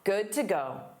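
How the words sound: The pitch falls at the end. It states that someone is ready. "a falling intonation marks a statement"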